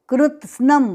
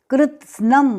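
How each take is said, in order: The two takes are said the same way.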